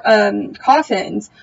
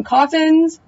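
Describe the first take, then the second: First: Said in the usual way. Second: Disbelieving question, pitched higher; incredulous. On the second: Real, not acted. Complaining to viewers about the coffins, incredulous. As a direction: scoff at it like a tired cliche.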